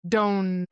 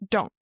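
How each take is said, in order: First: There is no T and the vowel is drawn out. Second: The final T cuts the sound off abruptly. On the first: The speaker calls it wrong. "If there's no T, don't, like you extend that last vowel" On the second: The speaker calls it right. "the T at the end kind of blocks the rest of the"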